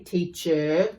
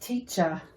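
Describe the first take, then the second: First: The ending is a full, pronounced er sound. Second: The ending is a short, weak uh sound. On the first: The speaker calls it wrong. "We don't say teacher" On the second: The speaker calls it right. "It's this box here, and it's things like teacher"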